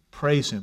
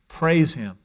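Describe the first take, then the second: First: Softer echo. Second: Said in the usual way. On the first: Shown as a demonstration. Preacher echoing his call to praise, softer. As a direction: repeat it quieter, as an echo. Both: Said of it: "Fill your heart with praise".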